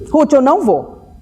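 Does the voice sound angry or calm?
angry. It is said in an irritated, angry tone.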